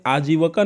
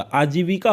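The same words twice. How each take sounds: First: आजीविका with "va" in place of "vi"; wrong form demonstrated. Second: आजीविका with a clear "vi"; correct form demonstrated. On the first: Teacher rejects the spoken form, wrong form demonstrated. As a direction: say आजीविका as aa-jee-va-kaa. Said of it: "आजीविका नहीं होता". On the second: Teacher gives students the correction, correct form demonstrated. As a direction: say आजीविका as aa-jee-vi-kaa. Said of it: "आजीविका होता है". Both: Shown as a demonstration.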